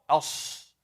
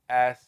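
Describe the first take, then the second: First: The s is heavy, with the tongue raised. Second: The s is light, with the tongue lowered. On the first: The speaker calls it right. "thick letters... The tongue is up higher" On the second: The speaker calls it wrong. "Say it with the with the tongue down. You will get this"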